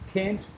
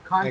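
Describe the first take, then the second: First: It is said in an American accent. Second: It is said in a British accent. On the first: "American accent" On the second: "means it's a British accent"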